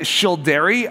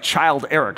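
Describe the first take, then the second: First: It does not sound like 'child' plus 'Eric'. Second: It sounds like the words 'child' and 'Eric'. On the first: The speaker calls it right. "I think, is how it's pronounced" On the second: The speaker calls it wrong. "It looks like Child Eric"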